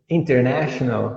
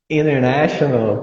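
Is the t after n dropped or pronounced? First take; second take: pronounced; dropped. First: The t after n is clearly pronounced. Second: The t after n is dropped. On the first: "Agora faz com American English" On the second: "Tira o T ... já ficou American English"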